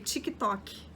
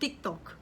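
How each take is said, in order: First: It is said with a Brazilian Portuguese pronunciation. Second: It is said with a Spanish pronunciation. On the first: "aqui é TikTok" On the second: "que a gente fala em espanhol"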